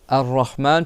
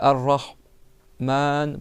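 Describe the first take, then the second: First: The word is said in one unbroken stretch. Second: The word is broken by a pause inside it. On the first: The speaker calls it right. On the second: The speaker calls it wrong.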